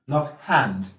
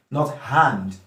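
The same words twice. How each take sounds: No difference in how they are said.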